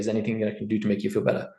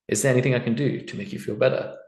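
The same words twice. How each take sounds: First: The voice sounds flat and unfeeling. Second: The voice sounds warm and caring. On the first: The apology does not sound sincere. The speaker calls it wrong. "Does that sound genuine? I would say no" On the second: The apology sounds sincere and empathetic. The speaker calls it right. "Same words said in a different way"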